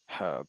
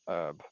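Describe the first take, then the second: First: The word starts with a pronounced h sound. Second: The word starts directly with a vowel sound. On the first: "like h herb" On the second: "not herb"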